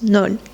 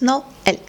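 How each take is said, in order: First: The word is said as one syllable. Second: The word is said as two syllables. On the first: The word is written without the accent. "If we don't have this accent, according to the French rules, we need to pronounce this word as Nol" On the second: The word is written with the accent. "we pronounced it with two syllables"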